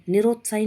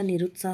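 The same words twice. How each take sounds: First: निरुत्साही with rot and final ee; wrong form. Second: निरुत्साह with rut, ending in saah; no final ee on निरुत्साह; correct form. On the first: Teacher showing the error, निरुत्साही ending in ee. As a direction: end निरुत्साही on ee. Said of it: "नहीं होता". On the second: Teacher correcting the word, निरुत्साह ending in saah. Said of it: "होता है". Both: Shown as a demonstration.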